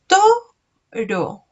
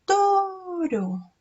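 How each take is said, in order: First: "Toro" as two separate beats, to high and loud; syllable by syllable. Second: "Toro" with a long high to gliding into ro; drawn-out first syllable. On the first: Teacher showing children how to count, "Toro" syllable by syllable. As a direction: punch to, pause, then ro. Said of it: "vamos a hacer así". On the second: Teacher hinting at the initial syllable, "Toro" with to drawn out. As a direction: stretch the to of "Toro" high, no pause before ro. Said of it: "¿Y cuál es la sílaba inicial?". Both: Shown as a demonstration.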